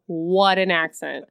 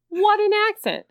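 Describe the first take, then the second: First: Said in the usual way. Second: Much higher-pitched amazed exclamation. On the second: Real, not acted. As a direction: marvel at it, pitched way up. Admiring the impression, repeated higher.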